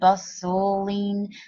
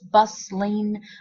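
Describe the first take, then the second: First: The word is said with three syllables. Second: The word is said with two syllables. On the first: "Other people pronounce it more as three" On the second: "some people pronounce it as two syllables"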